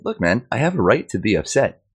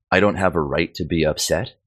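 First: "I have a right to be upset" higher, with swinging emphasis; "I have a right to be upset" as an indignant, higher-pitched retort; insistent assertion. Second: "I don't have a right to be upset" ending on a questioning rise; "upset" lifted at the end as a question; questioning echo. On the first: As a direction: push back firmly on "I have a right to be upset". His retold assertion against that dismissal. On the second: Echoes the man's dismissal as question. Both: Retold or imitated.

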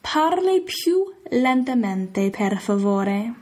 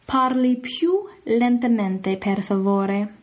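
First: "Parli più lentamente, per favore" drawn out slowly; slow Italian request. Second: "Parli più lentamente" slowly, "per favore" at a normal pace; repeated Italian request. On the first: Teacher slowly modelling asking someone to slow down. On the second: Teacher repeating the slow-down phrase. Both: Shown as a demonstration. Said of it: "you can always tell them".

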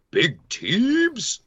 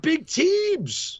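First: Higher, put-on hype voice for the nickname Big Teebs. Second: Much higher and slow, stretching out Big Teebs; drawn-out Big Teebs. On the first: Commentator shows how he says Big Teebs, higher, in a hype voice. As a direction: announce Big Teebs like a ring name. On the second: Commentator defends his call, stretching Big Teebs much higher and slow. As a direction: draw out Teebs like a ring announcer. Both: Shown as a demonstration. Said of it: "I said Big Teebs".

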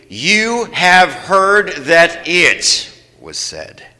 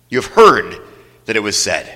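First: Very slow, each word drawn out; slow reading together. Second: Said in the usual way. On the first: Shown as a demonstration. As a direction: lead them through word by word. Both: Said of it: "read those first five words with me".

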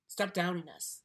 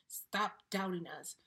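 First: Firm demand. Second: Slowed down, each word "Stop doubting us" spelled out; "Stop" leaned on, slow and deliberate; slow insistence. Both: Real, not acted.

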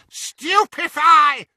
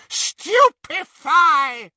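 First: High, slow shouted spell; screamed spell. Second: High, drawn-out shouted curse; screamed spell. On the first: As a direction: yell the curse out long. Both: A narrator's reading. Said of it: "she screamed".

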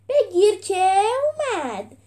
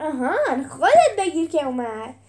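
First: High, loud, drawn-out yell; slow, gloating shout before the blow; battle cry. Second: Loud, quicker comeback cry; punchy shout with a rising start; retorting. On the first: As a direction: stretch the cry as you strike. Fighter's cry before final blow. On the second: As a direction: throw the taunt back. Hero throws the cry back. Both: A narrator's reading.

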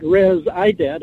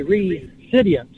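First: "res ident" as rez plus EYE-dent; wrong syllable split. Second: "re-sidient" as REE, then sidient; corrected syllable split. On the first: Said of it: "It's not res ident". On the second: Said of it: "So it would be". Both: Shown as a demonstration.

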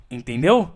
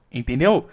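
Both takes have the same delivery.

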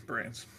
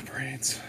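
First: Breathy, lifeless zombie sigh; dead zombie whisper. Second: Sighing, fed-up zombie groan; exasperated zombie. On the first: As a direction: whisper it like you're dead inside. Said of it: "It's better". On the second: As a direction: sigh it out like a bored zombie. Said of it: "it sounded a little bit exasperated". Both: Acted.

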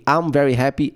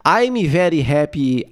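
First: Said in the usual way. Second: Slow "I'm very happy" with added Brazilian vowels; Brazilian-accented English. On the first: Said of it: "é a mesma coisa". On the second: Shown as a demonstration. Showing it means the same, slow Brazilian accent. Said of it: "É a mesma coisa".

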